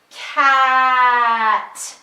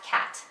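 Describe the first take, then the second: First: Drawn-out sounds blended without a break; stretched slow blend. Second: "cat" said quickly as one word; said fast. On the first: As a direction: stretch every sound but keep them joined. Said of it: "say the sounds together like this". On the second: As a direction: snap the sounds together fast. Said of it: "then they would say it fast". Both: Shown as a demonstration.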